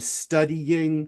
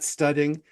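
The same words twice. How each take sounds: First: It is said with a y glide between vowels. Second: It is said with no y glide between vowels. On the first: The speaker calls it right. "there's a hidden Y" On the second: The speaker calls it wrong. "instead of studying. I'm not studying"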